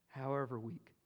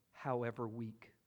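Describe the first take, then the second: No difference in how they are said.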